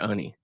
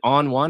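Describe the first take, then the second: First: The name sounds like 'oh-nee', two short syllables. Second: The name sounds like the words 'on one'. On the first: The speaker calls it right. "It is Oni" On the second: The speaker calls it wrong. "Is it on one or Oni?"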